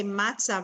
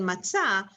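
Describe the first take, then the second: First: MATzah with the stress up front; stress on first syllable. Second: MatZAH with the weight on ZAH; matzah, final syllable stressed; stress on last syllable. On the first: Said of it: "you would say matzah rather than". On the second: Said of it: "rather than matzah". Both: Shown as a demonstration.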